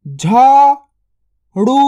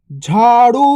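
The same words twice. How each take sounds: First: झाड़ू drawn out very slowly; slow stretched word. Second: Said in the usual way. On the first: Shown as a demonstration. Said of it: "stretched drill take". (झाड़ू को धीरे खींचकर बोलें) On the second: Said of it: "normal take".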